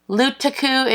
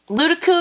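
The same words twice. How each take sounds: First: The word is said slowly, each syllable distinct. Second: The word is said quickly, syllables run together. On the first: "if you pronunciate" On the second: "if you say it fast"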